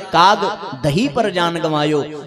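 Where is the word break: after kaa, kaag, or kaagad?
kaag. The break comes after "kaag".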